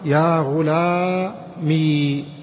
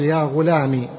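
First: The word ends in a long i sound. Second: The word ends in a short i sound. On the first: "أثبتت الياء ساكنة" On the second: "تحذف الياء وتضع بدلا منها كسرة"

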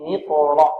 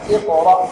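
First: It runs on from the previous word, no glottal stop. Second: It begins fresh with a glottal stop. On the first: The word is joined to what comes before. "لو وصلناها من علاق اقرأ" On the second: The word starts the recitation. "وإذا ابتدأنا اقرأ"

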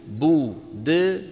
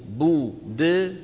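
The two takes are said the same way.

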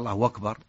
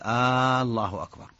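First: The final r is followed by a long u vowel. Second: The opening vowel is lengthened like a question. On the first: The meaning stays the same. "أشبع الأتى بواو" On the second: It turns the phrase into a question. "هذه استفهام، كأنه يسأل هل الله أكبر"

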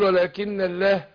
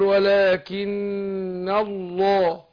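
First: The l in Allah is light and thin. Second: The l in Allah is heavy and dark. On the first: The speaker calls it wrong. "مش هتيجي" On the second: The speaker calls it right. "اقول ولكن الله"

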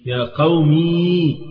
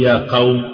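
First: The word ends in a long ee vowel. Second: The word ends in a consonant with no vowel. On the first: "تنطق هذه الياء ساكنة" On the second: "أو حتى تشيل الكسرة كمان"

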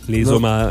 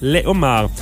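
First: A z sound links les to homards. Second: No z sound links les to homards. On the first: The speaker calls it wrong. "pas les homards" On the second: The speaker calls it right. "parce qu'il y a un H, pas supposé de faire la liaison là"

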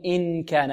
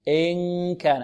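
First: The n is fully pronounced with the tongue tip. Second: The n is hidden in a nasal hum. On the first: The speaker calls it wrong. "لا نقول إن كان" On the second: The speaker calls it right. "وصوت يجري من الخيشوم هكذا"

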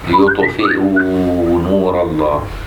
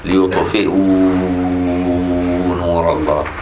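First: The long vowel is held for two counts. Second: The long vowel is held for four counts. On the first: "مد حركتين" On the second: "واربعة"

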